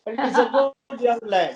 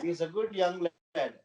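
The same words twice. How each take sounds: First: Higher, louder praise; emphatic praise. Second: Said in the usual way. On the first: Real, not acted. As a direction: lift it up with conviction. Emphatic praise of young player.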